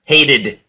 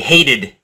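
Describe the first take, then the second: First: The middle consonant is a soft D sound. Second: The middle consonant is a soft D sound.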